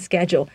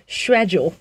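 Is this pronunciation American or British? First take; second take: American; British. First: It is said with an American accent. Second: It is said with a British accent. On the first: "美式英文会说schedule" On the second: "英式的发音是schedule"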